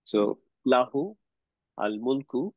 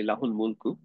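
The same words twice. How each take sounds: First: লাহু and আল মুলকু said apart, slow, each word set off. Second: লাহুল মুলকু run together, the u of লাহু linking straight into আল; joined reading. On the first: Teacher splits লাহু আল মুলকু slowly for students. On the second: Teacher shows students the joined reading লাহুল মুলকু. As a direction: say লাহুল মুলকু as one smooth phrase. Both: Shown as a demonstration. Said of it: "আমরা একসাথে মিলায় পড়লে বলি".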